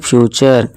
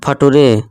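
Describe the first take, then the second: First: The word ends with a short 'cher' sound. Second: The word ends with a 'too-ray' sound. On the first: The speaker calls it right. "इसे हम क्या पढ़ेंगे फ्यूचर" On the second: The speaker calls it wrong. "फटुरे नहीं दोस्तों, ये गलत हो जाएगा"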